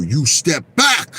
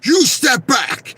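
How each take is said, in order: First: Slow firm bodyguard warning. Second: Slow, much higher shouted warning from a bodyguard; bodyguard shouting. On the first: Bodyguard warning the fan away from Don King, slow firm. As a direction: order him back, slowly and firmly. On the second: Bodyguard shouting at the fan near Don King, slow high warning. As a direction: bark it again, pushing him away. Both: Retold or imitated. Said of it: "They go".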